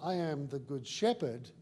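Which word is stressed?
I. The stress is not on good.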